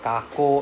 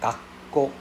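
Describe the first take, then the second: First: The k sound is short, with no pause. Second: The k sound is held long, with a pause. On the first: The speaker calls it wrong. "instead of" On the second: The speaker calls it right. "is like Gakko with the double K sound"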